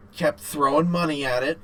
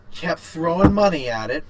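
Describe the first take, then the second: No difference in how they are said.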